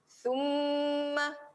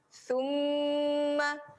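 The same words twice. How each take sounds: First: The m is doubled and held with nasal hum. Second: The same.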